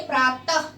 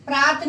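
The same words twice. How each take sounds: First: प्रातः ending on a short breathy ह of the visarga; correct version. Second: प्रात cut short with no breathy ह at the end; wrong version. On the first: Teacher showing pupils the right way to say प्रातः. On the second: Teacher showing pupils the wrong way to say प्रात. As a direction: say प्रात without the visarga. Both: Shown as a demonstration. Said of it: "प्रात नहीं बोलते".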